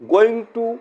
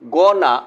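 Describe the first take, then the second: First: Both words are said fully and separately. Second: The words blend into one short reduced word. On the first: "পূর্ণরূপ" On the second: "assimilation"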